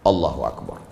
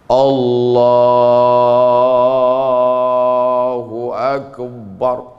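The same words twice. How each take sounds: First: The phrase is said short and quick. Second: The phrase is drawn out and long.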